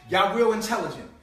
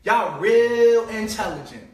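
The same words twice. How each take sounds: First: Said in the usual way. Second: Slow and louder, leaning on "real"; mock the listener with slow sarcasm; drawn-out sneering praise; sarcastic. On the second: Sarcastic repeat of insult.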